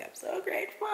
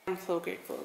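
First: Much higher, cutesy squeal; overwhelmed high-pitched gush; squeaky high. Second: Said in the usual way. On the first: Real, not acted. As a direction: squeal it up high like you're gushing. Repeats grateful line twice.

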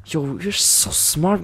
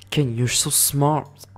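First: Higher, slow, hyped-up compliment; hammed-up slow praise; excited praise. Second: Said in the usual way. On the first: Shown as a demonstration. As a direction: pump him up, drawn out.

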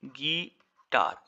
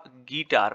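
First: guitar split slowly into गी and टार, the second syllable drawn out full; syllable stress demo. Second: Said in the usual way. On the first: Shown as a demonstration. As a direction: sound out guitar in two slow beats, short गी, full टार. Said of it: "टार में ए का sound आपका complete आता है". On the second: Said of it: "गी में आपका आई का साउंड कंप्लीट नहीं आता".

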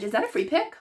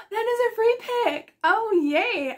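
First: Unsure question, rising on PICK. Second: High-pitched, gasping excitement; thrilled. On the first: Checking whether the orange draw is a free pick, questioning. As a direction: ask "Is that a free pick" with a rise at the end. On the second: Vlogger discovering she drew a free pick, thrilled. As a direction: exclaim it high and drawn out, overjoyed. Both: Real, not acted.

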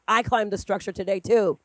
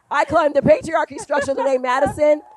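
First: Said in the usual way. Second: Triumphant joke. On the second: Retold or imitated. Punchline joke to daughter.

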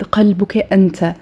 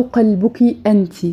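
First: قلبك أنت said as qelbuk enta, masculine ending; masculine address. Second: قلبك أنت said as qelbuki enti, feminine ending; feminine address. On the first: Teacher to students, showing the masculine form. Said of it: "عايزة أقول لحد". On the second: Teacher to students, showing the feminine form. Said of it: "أو". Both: Shown as a demonstration.

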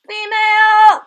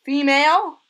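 First: Female! cried out high and loud; excited shout. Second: Said in the usual way. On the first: Real, not acted. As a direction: yell Female! with delight. Repeats the discovery louder.

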